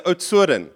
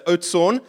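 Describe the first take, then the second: First: Oudtshoorn the Afrikaans way, ending "-oo-ren"; local pronunciation. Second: Oudtshoorn the English way, ending in a plain "-orn"; English pronunciation. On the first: Retold or imitated. Son correcting his dad, Afrikaans-style Oudtshoorn. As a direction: say Oudtshoorn with a tapped r and an extra last syllable. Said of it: "if you're in Wellington, you say".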